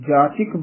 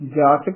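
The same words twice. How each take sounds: First: The vowel after 'ch' is 'i'. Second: The vowel after 'ch' is 'a'. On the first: The speaker calls it right. "ਜਾਚਕ ਬੋਲਣਾ ਹੈ ਚੱਚੇ ਦੀ ਸਿਹਾਰੀ ਦੇ ਨਾਲ" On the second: The speaker calls it wrong. "ਜਾਚਕ ਨਹੀਂ ਬੋਲਣਾ ਹੈ"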